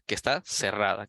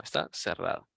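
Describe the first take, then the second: First: Said in the usual way. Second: Quiet repeat. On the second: Shown as a demonstration. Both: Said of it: "como ya habíamos mencionado".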